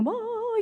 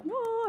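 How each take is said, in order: First: Very high, breathy-free heavenly whoa; angelic whoa. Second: Very high, softer amazed whoa; awed whoa. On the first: Angels marvelling at the embroidery, very high whoa. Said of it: "the angels are saying". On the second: Herself stunned by the Byzantine design, very high soft whoa. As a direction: gasp out her own amazement. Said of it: "and I'm like". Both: Retold or imitated.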